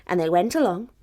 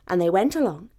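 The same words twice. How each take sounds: The two takes are said the same way.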